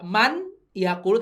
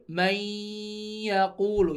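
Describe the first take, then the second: First: The n is sounded clearly before the y. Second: The n merges into a nasalized doubled y. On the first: The speaker calls it wrong. "nggak man yakulu" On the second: The speaker calls it right. "tapi mai yakulu"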